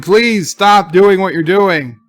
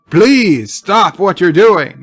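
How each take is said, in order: First: It is said in a mild, soft voice. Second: It is said in a firmer voice.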